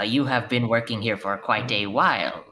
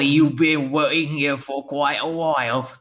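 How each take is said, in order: First: It is said in the speaker's ordinary accent. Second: It is said in a put-on British accent.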